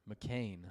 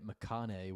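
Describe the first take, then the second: First: The name is said like the short surname McCain. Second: The name is said longer, with extra syllables. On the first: "like the English surname?" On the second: "I've been saying it McConaughey, which I'm sure is incorrect"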